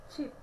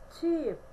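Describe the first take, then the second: First: Cheap said quick with a short clipped i, like chip; short i vowel. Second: Cheap with a long drawn-out ee; long ee vowel. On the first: Teacher contrasting two words for students, short i. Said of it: "tem o som curto". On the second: Teacher contrasting two words for students, long ee. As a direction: stretch the ee in Cheap. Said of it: "tem o som de I prolongado". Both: Shown as a demonstration.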